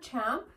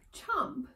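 First: The vowel sounds like the one in cat. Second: The vowel sounds like the one in hot. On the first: The speaker calls it wrong. "Not champ" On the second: The speaker calls it right.

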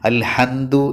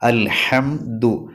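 First: The m sounds like an n. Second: The m is made with closed lips. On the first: The speaker calls it wrong. "അൽഹംദു എന്ന് പറയരുത്. നൂന് പറയുന്ന ഉച്ചാരണത്തിലാവരുത്" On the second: The speaker calls it right. "മീമ് 2 ചുണ്ടുകൾ പൂട്ടിയ രൂപത്തിൽ തന്നെ പറയണം"

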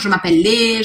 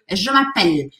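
First: A vowel sound follows the final L. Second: The word ends on the L sound. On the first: The speaker calls it wrong. "Eu não falo" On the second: The speaker calls it right. "Eu paro o som na letra L"

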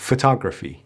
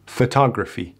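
The two takes are said the same way.

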